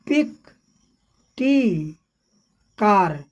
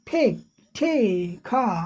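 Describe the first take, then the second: First: The first consonants are plain, without a puff. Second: The first consonants carry a strong puff of air. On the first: The speaker calls it wrong. "हम लोग पिक पढ़ देते हैं" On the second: The speaker calls it right. "सही जब British accent में करेंगे"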